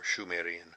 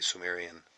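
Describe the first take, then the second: First: The word begins with a sh sound. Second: The word begins with an s sound. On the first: This is the name the people used for themselves. The speaker calls it right. "it was named Shumer, evidently the name they had for themselves" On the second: This is the later scholarly form of the name. The speaker calls it wrong. "they had mispronounced, you can say, the sh as s"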